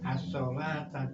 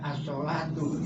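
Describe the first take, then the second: First: The word ends with the vowel a. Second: The word ends with the vowel u. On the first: The speaker calls it right. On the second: The speaker calls it wrong.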